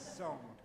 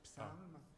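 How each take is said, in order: First: It is said in a British way. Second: It is said in a French or Latin way.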